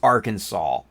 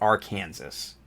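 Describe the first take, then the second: First: The word ends with a plain 'saw' sound. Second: The word ends like 'Kansas', following the spelling. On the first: This is how the name is really said. "I know it's Arkansas" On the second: This is how the name is written. "It's spelled Arkansas"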